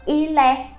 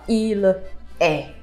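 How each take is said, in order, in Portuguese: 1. As duas palavras são ligadas numa só. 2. As duas palavras são ditas separadas. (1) "como se fosse uma palavra só" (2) "A gente não fala il est"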